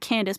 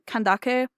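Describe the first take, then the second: First: The name ends with a 'dace' sound. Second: The name ends with a 'dakay' sound. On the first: This is how the game says it. The speaker calls it wrong. "it's pronounced in the game Candace" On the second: This is how it is meant to be said. The speaker calls it right. "I think it's meant to be pronounced uh Ken- Kandake"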